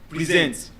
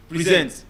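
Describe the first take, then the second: No difference in how they are said.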